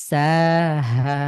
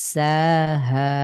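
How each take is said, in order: Both takes have the same delivery.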